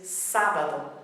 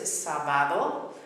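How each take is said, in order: First: The stress is on the first syllable. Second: The stress is on the second syllable. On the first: The speaker calls it right. "the pronunciation is sábado" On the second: The speaker calls it wrong. "a lot of people mispronounce it sábado"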